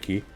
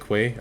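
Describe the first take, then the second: First: It is pronounced like 'key'. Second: It is pronounced like 'kway'. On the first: "I don't say key" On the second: "I say Q U A Y, so I say quay"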